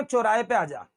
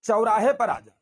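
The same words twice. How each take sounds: First: चौराहे as quick "chorahe"; quick चौराहे, no "a" glide; wrong single vowel. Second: चौराहे as "cha-urahe"; correct double vowel. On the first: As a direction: rattle off चौराहे with a pure "o". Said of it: "कभी नहीं बोलेंगे". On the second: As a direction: open the first vowel of चौराहे into "au". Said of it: "चौराहे पे नहीं बुलाएंगे". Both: Shown as a demonstration.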